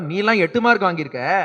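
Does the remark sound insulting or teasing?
teasing. It is said in a light, teasing tone. It is a friendly joke. "வேடிக்கையாக சொன்னேன்"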